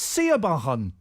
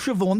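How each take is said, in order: First: The name is sounded out letter by letter. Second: The name is said in its usual short form. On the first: "that's Siabahan" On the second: "That's not Siobhan"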